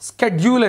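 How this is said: The word begins with a 'sk' sound. This is the American way of saying it. "స్కెడ్యూల్ అని America వాళ్ళు అంటారు"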